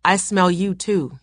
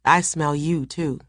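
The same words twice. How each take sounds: First: Said in the usual way. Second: A hint of soft breath under the words; soft breathy. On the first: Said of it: "he said". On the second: A narrator's reading. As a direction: say it softly, close to her ear. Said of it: "His voice was soft, breathy".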